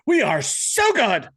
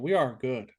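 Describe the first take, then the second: First: It is said with lively enthusiasm. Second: It is said flatly, with no enthusiasm.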